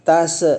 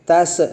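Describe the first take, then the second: First: The final consonant bounces with an echo. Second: The final consonant bounces with an echo.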